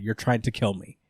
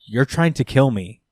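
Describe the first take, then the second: First: Flat, soft, matter-of-fact; plain and quiet. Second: Said in the usual way. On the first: Shown as a demonstration. Daredevil calmly tells the warden, flat and soft. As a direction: say it plainly, no drama. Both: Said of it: "Like, regular, plain, just like that".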